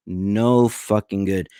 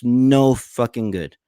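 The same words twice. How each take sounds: First: "No fucking good" said slowly, each word weighed; slow emphatic repeat. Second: Said in the usual way. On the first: Real, not acted. Streamer repeats his verdict on Jimmy Dore, slow and weighted.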